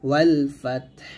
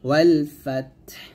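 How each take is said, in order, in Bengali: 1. শেষ শব্দটি ব্যঞ্জনধ্বনিতে শেষ হয়। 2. শেষ শব্দটি ব্যঞ্জনধ্বনিতে শেষ হয়।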